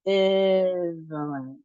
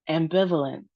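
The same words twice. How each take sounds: First: Ambivalent slowly, syllables drawn out; slow practice model. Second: Said in the usual way. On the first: Shown as a demonstration. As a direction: stretch Ambivalent for learners to follow. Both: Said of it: "So let's try it".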